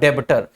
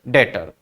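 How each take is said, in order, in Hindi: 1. t से पहले b की आवाज़ बोली जाती है। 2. t से पहले b की आवाज़ नहीं बोली जाती है। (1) "पढ़ने में पढ़ा जाता है डेबटर" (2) "बी जो है वो साइलेंट है"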